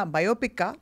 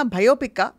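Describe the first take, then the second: First: Said in the usual way. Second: బయోపిక్కా with a breathy aspirated "bh" at the start; punning mispronunciation. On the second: Shown as a demonstration. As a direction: say బయోపిక్కా as "bhayopikka", punning on fear. (బయోపిక్కాలో మొదటి "బ"ను ఒత్తి "భ"గా పలుకుతూ) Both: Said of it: "లేక ఇంకేమన్నా బయోపిక్కా".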